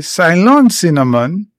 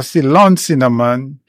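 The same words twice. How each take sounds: First: Ceylon said "sigh-LON"; first pronunciation of Ceylon. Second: Ceylon said "see-LON"; alternative pronunciation of Ceylon. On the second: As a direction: say Ceylon with a "see" first syllable. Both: Shown as a demonstration. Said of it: "how you pronounce it".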